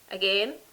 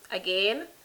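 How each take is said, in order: The two takes are said the same way.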